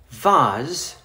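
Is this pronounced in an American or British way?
British. It is said with British pronunciation.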